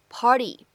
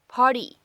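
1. 这个 t 是快速的闪音。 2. 这个 t 是快速的闪音。

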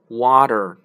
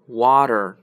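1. 中间的辅音听起来像 d。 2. 中间的辅音听起来像 d。

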